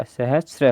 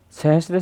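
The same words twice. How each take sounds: First: सहस्र said as sa-hus-ra with no t sound; सहस्र pronounced sahasra, the corrected form. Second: सहस्त्र read with a full त्र cluster, sa-hus-tra; सहस्त्र said as sahastra, the incorrect form; wrong spelling read out. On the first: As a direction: drop the t and say सहस्र cleanly. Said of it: "सहस्र होगा". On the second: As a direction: sound out सहस्त्र with the extra t before the r. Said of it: "सहस्त्र नहीं होगा". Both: Shown as a demonstration.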